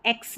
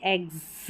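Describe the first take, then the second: First: एक्स with voiceless ks at the end; wrong KS ending. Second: एग्स with voiced g and a z for the s, "egz"; correct GZ ending. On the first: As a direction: show the rejected reading एक्स, hissed "eks". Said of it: "इसको एक्स नहीं पढ़ते". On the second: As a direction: show एग्स softly, ending in buzzed gz. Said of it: "ज पढ़ रहे हैं एस को". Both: Shown as a demonstration.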